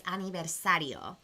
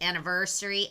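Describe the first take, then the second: First: "aniversario" with the v softened to a light b; soft v. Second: Said in the usual way. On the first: Shown as a demonstration. Teacher modelling Spanish v sound for viewers, soft b. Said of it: "It's more like a silent V". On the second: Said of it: "like anniversary".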